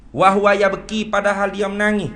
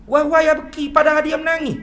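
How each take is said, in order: First: Said in the usual way. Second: Much higher, urgent restatement of "Wa huwa yabki"; emphatic repeat. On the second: Shown as a demonstration. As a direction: drive "menangis" home, pitched high.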